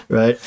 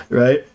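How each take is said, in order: No difference in how they are said.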